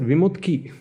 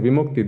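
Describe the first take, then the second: First: The name ends with the sounds t then k. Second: The name ends with the sounds k then t. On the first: The speaker calls it wrong. "they always said Vimutki" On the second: The speaker calls it right. "instead of saying Vimukti"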